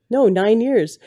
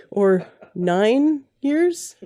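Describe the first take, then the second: First: NINE YEARS higher-pitched, then falling into certainty; firm confirmation. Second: NINE YEARS drawn out slowly, pitch rising high into a question; unsure question. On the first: Host settles her own count of years, firmly confirming. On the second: Host doubts her own count of years, questioning. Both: Real, not acted.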